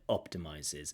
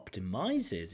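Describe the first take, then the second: First: The stress is on the first syllable. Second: The stress is not on the first syllable. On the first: The speaker calls it right. "So stress on the first syllable there" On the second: The speaker calls it wrong. "Rather than optimizes"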